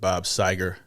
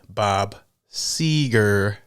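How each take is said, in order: First: The first vowel of the surname is short. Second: The first vowel of the surname is a long ee. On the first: The speaker calls it wrong. "I think I said Bob Seger the last time" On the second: The speaker calls it right. "She put a lot of E's, so I pronounced the name right"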